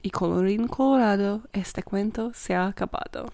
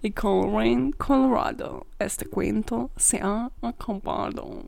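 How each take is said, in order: First: It is spoken with a native Spanish accent. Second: It is spoken with an American accent.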